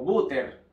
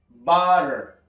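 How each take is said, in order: First: The first vowel sounds like Spanish u. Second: The first vowel sounds like Spanish a. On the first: The speaker calls it wrong. "Cualquiera hubiese pronunciado como butter y nadie te entiende" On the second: The speaker calls it right. "cambia acá esta vocal de ser una U a una A"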